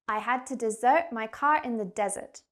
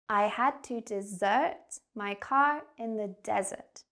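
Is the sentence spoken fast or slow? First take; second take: fast; slow. First: The sentence is spoken very quickly. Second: The sentence is spoken slowly. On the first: "I'm going to say the sentence really quickly" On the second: "So I'll slow it down for you"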